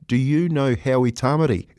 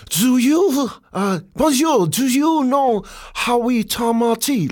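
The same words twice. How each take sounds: First: Said in the usual way. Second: Put-on high, drawn-out French-accented English. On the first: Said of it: "Mate, he's saying". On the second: French stranger asks the touring players, high slow French accent. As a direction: imitate a Frenchman labouring through English. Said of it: "in his French accent".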